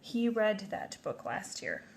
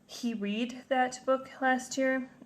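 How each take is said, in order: First: The word read rhymes with bed. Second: The word read rhymes with seed. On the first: The speaker calls it right. "I need to say it or pronounce it the correct way" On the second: The speaker calls it wrong. "That doesn't make sense the way I said it"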